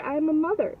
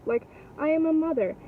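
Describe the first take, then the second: First: Said in the usual way. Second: Am pressed and held in "I am a mother"; stress on am. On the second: Real, not acted. Insisting to the mom she is a mother, stressing am. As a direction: lean on the word am, falling.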